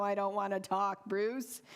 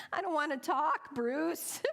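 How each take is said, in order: First: Said in the usual way. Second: Mock-frantic protest to the loan officer; exasperated. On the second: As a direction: whine it like you've had enough. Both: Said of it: "I thought".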